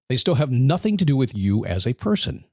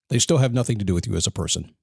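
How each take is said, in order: First: It is said slowly. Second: It is said fast.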